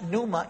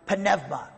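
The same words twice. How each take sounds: First: It uses the Erasmian Greek pronunciation. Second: It uses the historical Greek pronunciation. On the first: "It's pronounced pneuma in the Erasmus pronunciation" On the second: "I'm giving you the historically correct one"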